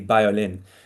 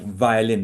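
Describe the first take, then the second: First: The word begins with a b-like sound. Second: The word begins with a clear v sound. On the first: "they say violin. The, the V is very difficult to pronounce" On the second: "instead of saying, for example"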